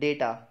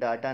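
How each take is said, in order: First: The first vowel sounds like 'ay'. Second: The first vowel sounds like 'ah'. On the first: The speaker calls it right. "इसको बोलते हैं डेटा" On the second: The speaker calls it wrong. "Pronunciation डाटा नहीं है"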